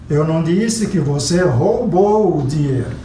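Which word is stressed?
roubou. The stress falls on the word roubou. It was borrowed, not stolen. "você pegou emprestado"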